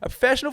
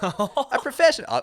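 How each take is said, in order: First: It is said in an assumed, put-on voice. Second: It is said in the speaker's normal voice.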